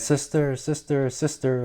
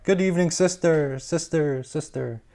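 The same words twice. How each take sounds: First: Higher and softer, a distant echoing reply; cave echo. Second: Quacked call. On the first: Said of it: "a voice from the cave came back". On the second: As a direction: call into the cave, dying away. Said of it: "She quacked". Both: Acted.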